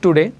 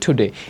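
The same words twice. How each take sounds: First: The t is said without a puff of air. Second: The t is said with a strong puff of air. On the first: The speaker calls it wrong. "নট টুডে" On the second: The speaker calls it right. "টিরে ঠ পড়তে হবে"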